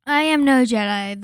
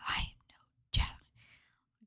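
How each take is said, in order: First: Announced title. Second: Slow, hushed, breathy-free whisper; imitating Ahsoka's whisper. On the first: Shown as a demonstration. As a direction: quote called out loud and strong. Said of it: "the Ahsoka versus Darth Vader scene". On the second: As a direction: whisper it slowly, cold and final. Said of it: "and she goes".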